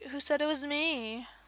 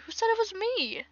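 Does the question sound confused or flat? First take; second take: flat; confused. First: The question is said in a flat tone. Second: The question is said with a confused tone. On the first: The speaker calls it wrong. "She's just like, ... no. Doesn't sound right" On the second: The speaker calls it right. "She has to have some more like, I guess, like, confusion in her voice with that"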